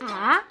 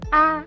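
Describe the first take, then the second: First: The pitch rises from mid to high. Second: It is short and light with no contour. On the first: "dia tandanya naik, naik, naik ke atas" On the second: "tidak berisikan nada ... ringan dan pelan"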